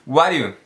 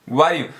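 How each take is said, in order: Both takes have the same delivery.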